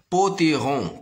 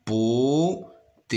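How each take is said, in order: First: Said in the usual way. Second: "Potiron" slow, in separated beats; stretched syllables with gaps in "Potiron". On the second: Shown as a demonstration. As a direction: sound out "Potiron" as po, ti, ron. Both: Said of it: "se compose de trois syllabes".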